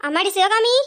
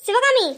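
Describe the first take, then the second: First: Said in the usual way. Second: Raised second call to Sivakami. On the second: Acted. Calling again, louder.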